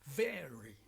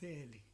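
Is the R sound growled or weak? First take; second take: growled; weak. First: The R is a strong growling sound. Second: The R sound is weak or replaced. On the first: The speaker calls it right. "like to make dogs growling sounds" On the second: The speaker calls it wrong.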